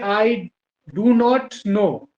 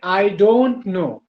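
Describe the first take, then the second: First: Do and not are said as separate words. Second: Do and not are merged into one word. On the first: "अलग अलग करके बोलते हैं" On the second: "दोनों को एक साथ मिलाकर उसको शॉर्ट फॉर्म बनाया डोंट"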